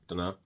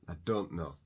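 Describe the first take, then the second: First: One blended word with no T and no pronoun. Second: Three words, with the T replaced by a stop. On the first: "So no T sound at all. It just ends with an O" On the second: "you've got a, a sharp stop"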